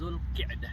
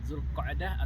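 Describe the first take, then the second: First: The middle syllable has the vowel i. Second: The middle syllable has the vowel a. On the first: "Ada dua cara baca" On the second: "Ada dua cara baca"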